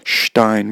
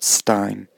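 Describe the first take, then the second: First: The word is said with a non-English pronunciation. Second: The word is said with the English pronunciation. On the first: The speaker calls it wrong. "Not Stein" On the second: The speaker calls it right. "The English pronunciation is Frankenstein"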